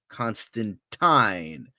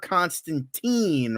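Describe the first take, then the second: First: The final syllable is said as 'tyne'. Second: The final syllable is not said as 'tyne'. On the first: The speaker calls it right. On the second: The speaker calls it wrong.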